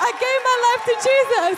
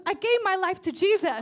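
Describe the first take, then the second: First: High, very loud cry of victory; triumphant shout. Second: Louder, lifted retelling of joyful news; excited announcement. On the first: Preacher repeats the convert's news to the congregation, triumphant shout. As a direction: shout the news to the whole room. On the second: Ex-psychic shares her conversion with the preacher, excited announcement. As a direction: announce it with rising excitement, short of a full shout. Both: Retold or imitated.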